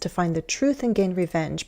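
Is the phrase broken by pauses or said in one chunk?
one chunk. The whole phrase is said without a pause. "You could say all of this"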